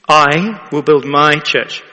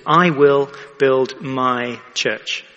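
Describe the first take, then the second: First: "build" leaned on, slow and louder; slow emphatic repeat. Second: "I" and "my" weighted, slow and deliberate; stress on I and my. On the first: Preacher repeats Jesus' words to the congregation, slow and weighty. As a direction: give "I will build my church" a slow weighted repeat, stress on "build". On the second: Preacher stresses whose church it is, "I" and "my" weighted. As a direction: lean on "I will build my church" at I and my. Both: Shown as a demonstration. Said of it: "The emphasis is on I and my".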